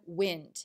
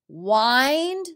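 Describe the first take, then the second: First: The vowel is a short i sound. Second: The vowel is a long i sound. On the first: It means moving air. "I don't hear long I in the word wind" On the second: It means to twist or coil something. "notice the long I word in it"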